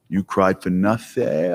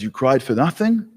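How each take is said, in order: First: Slow, taunting and a bit lower, like a gloating bully; mocking vengeful God. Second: Said in the usual way. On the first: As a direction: drag it out as a smug God who messed with you. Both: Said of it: "That's how we see this".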